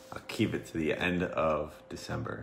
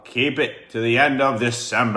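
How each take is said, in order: First: Mumbled under the breath; quiet. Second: Raised, louder repeat. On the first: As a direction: say it half to yourself. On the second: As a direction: speak up so everyone hears. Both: Real, not acted. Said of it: "You gotta speak up".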